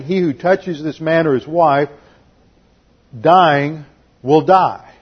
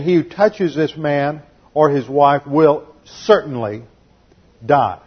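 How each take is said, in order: First: Slow, stiff literal rendering of dying will die; wooden literal reading. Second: Said in the usual way. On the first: Shown as a demonstration. Teacher mocking the wrong translation, slow and stiff. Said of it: "Abimelech is not saying". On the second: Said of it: "He's saying".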